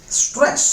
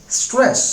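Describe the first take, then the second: The two takes are said the same way.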